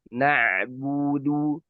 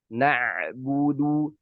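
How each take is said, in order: The two takes are said the same way.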